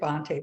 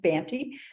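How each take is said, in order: First: The name is given a posh, aristocratic-sounding pronunciation. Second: The name is given a plain, ordinary-sounding pronunciation. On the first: The speaker calls it wrong. "It sounds very aristocratic to say" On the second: The speaker calls it right. "the actual pronunciation is"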